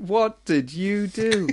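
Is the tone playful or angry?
playful. It is said in a light, playful tone.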